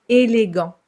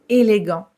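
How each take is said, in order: Both takes have the same delivery.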